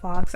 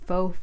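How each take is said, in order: First: The word ends with a clear 'ks' sound. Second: The word ends in a vowel, with no 'ks'. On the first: The speaker calls it wrong. "It's not fox. I used to say fox" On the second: The speaker calls it right. "I'm saying it right, right?"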